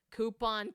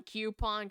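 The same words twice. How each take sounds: First: "coupon" with a plain koo, no y sound; coupon said KOO-pon. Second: "coupon" with a y glide, kyoo-pon. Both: Shown as a demonstration. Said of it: "caramel versus caramel".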